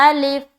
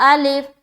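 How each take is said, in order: The two takes are said the same way.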